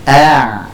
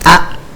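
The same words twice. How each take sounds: First: The sound flows on with a slight airflow. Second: The airflow is cut off abruptly. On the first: The speaker calls it right. "Kalau ain ini dia mengalir tapi sedikit" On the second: The speaker calls it wrong. "kita potong alirannya sehingga menjadi syiddah"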